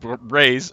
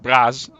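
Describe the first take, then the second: First: The name is said with an English-style pronunciation. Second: The name is said with a Dutch-style pronunciation. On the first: The speaker calls it wrong. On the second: The speaker calls it right.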